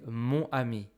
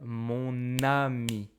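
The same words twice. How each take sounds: First: The two words are said separately, without linking. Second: The n sound links into the next word. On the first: The speaker calls it wrong. "I cannot say" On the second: The speaker calls it right. "I must say"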